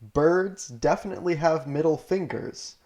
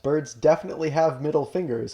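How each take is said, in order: First: It is read more slowly. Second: It is read at a normal speed.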